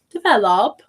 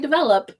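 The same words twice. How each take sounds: First: The unstressed vowel is full and carefully pronounced. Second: The unstressed vowel is a lazy, reduced 'uh' sound. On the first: The speaker calls it wrong. "So we don't say develop" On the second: The speaker calls it right. "We say develop. So it's sort of a lazy sound"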